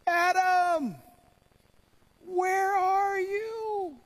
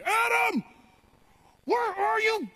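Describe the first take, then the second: First: It is said in a sad, heartbroken tone. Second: It is said in an angry, demanding tone.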